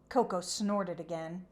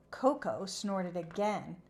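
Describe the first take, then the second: No difference in how they are said.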